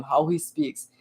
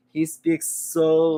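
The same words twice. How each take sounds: First: Said in the usual way. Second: Very slow and drawn out; slow, mesmerizing speech. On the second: Retold or imitated. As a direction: take your time with every word. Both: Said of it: "He takes his time".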